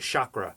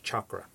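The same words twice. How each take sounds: First: It uses the common English pronunciation. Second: It uses the Sanskrit pronunciation. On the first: The speaker calls it wrong. "often people will say chakra" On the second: The speaker calls it right. "proper Sanskrit pronunciation is chakra"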